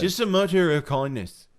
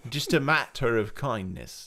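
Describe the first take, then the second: First: Higher, louder mock Liverpudlian; Liverpudlian accent. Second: Lightly put-on Londoner English; London accent. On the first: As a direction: put on a punchy Liverpool accent. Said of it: "that's Liverpudlian". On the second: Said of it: "more London".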